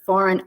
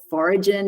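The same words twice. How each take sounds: First: It is pronounced in the usual standard way. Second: It is pronounced closely following its spelling. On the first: The speaker calls it right. "instead of" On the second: The speaker calls it wrong. "she actually gets really common words wrong"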